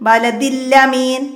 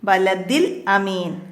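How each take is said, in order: First: A doubled l runs straight into amin. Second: A single l, then a glottal stop before amin. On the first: The speaker calls it wrong. "ലാമിന് ഷദ് വരും" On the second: The speaker calls it right. "ബലദിൽ അമീൻ എന്നാണ് വരിക"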